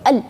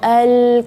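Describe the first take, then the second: First: The l is held and cut off abruptly. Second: The l is drawn out too long and loose. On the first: "nggak boleh al ditahan di situ, berarti itu syiddah" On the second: "al kepanjangan, terlalu kendor"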